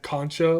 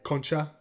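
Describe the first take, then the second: First: It is said like the English word conch. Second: It is said with a Spanish pronunciation. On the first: The speaker calls it wrong. "like like a C conch" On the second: The speaker calls it right.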